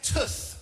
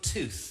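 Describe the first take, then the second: First: The vowel has a Birmingham accent. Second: The vowel has a standard accent. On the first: "I say tooth" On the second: "rather than tooth"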